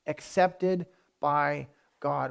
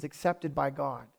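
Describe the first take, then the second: First: Very slow, each word set apart; measured and weighty, drawn out for emphasis; slow, deliberate repeat. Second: Said in the usual way. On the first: Real, not acted. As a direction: let every word land separately. Repeats phrase slowly for weight.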